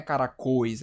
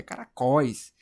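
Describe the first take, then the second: First: CARACÓIS with closed ô, cara-CÔIS; closed diphthong. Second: CARACÓIS with wide-open ó, cara-CÓIS; open diphthong. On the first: Teacher showing what it isn't, CARACÓIS as cara-CÔIS. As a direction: round and close the last vowel of CARACÓIS to ô. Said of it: "é aberto, não é". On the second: Teacher correcting the sound, CARACÓIS as open cara-CÓIS. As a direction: open the last vowel of CARACÓIS to ó. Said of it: "é aberto". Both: Shown as a demonstration.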